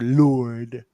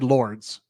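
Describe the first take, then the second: First: It is said with a French pronunciation. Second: It is said with an American pronunciation. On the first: The speaker calls it right. "but it is Lord" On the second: The speaker calls it wrong. "we all said Lords ... because we were Americans in the nineties"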